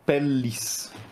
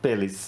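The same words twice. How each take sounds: First: The middle L sound is held long. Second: The middle L sound is short. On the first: The speaker calls it right. "the Latin word for, for skin is pellis" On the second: The speaker calls it wrong. "not pellis. It's two L's, not one"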